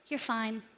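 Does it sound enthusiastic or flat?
flat. It sounds flat and unenthusiastic.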